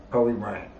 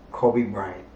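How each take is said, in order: Both takes have the same delivery.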